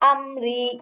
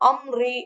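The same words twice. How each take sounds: First: The r sound is light, with spread lips. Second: The r sound is heavy and full-mouthed. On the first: The speaker calls it right. "Smiling face மாதிரி வச்சுட்டு உச்சரிக்கணும்" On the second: The speaker calls it wrong. "அம்ரி அம்ரி அப்படின்னா அது வந்து ஹெவி"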